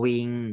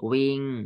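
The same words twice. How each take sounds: First: The syllable is said on a level mid tone. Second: The syllable is said with a falling tone. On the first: "วออีงอวิง" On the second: "ไม้เอก"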